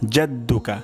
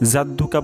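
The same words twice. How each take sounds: First: The word begins with a J sound. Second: The word begins with a Y sound. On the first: The speaker calls it right. "সঠিক উচ্চারণ হবে" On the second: The speaker calls it wrong. "জাদ্দুকা বললে ভুল হবে"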